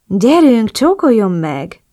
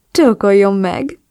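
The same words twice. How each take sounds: First: Urging. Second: Slow, smiling order with a voice unlike the narrator; lightly voiced man, lazily demanding; grinning command. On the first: The man urging her on, slow and insistent. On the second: The man on the bed, grinning as he orders her. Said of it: "utasított vigyorogva". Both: A narrator's reading.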